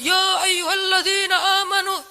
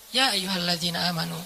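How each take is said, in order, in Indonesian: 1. Frasa ini diucapkan dengan keras, seperti berteriak. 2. Frasa ini diucapkan dengan lembut dan santai. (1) "Bukan dengan suara teriak. ... ayat itu turunnya nggak gini" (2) "tapi santai turunnya"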